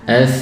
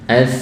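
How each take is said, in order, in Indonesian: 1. Bunyi s lembut dan mengalir. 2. Bunyi s lembut dan mengalir.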